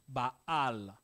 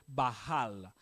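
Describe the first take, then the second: The two takes are said the same way.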